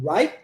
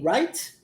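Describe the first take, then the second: First: The final t sound is swallowed. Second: The final t sound is clearly pronounced.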